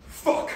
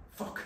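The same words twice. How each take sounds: First: Sharp, louder panicked swear; exclaimed curse. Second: Soft, deflated swear under the breath; a quiet, defeated curse; muttered curse. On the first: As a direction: blurt it out in alarm. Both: Acted.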